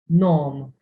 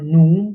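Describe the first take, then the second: First: The vowel is an open 'o' sound. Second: The vowel is a close 'oo' sound. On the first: The speaker calls it right. "You say it nom" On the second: The speaker calls it wrong. "You don't say it now or nu"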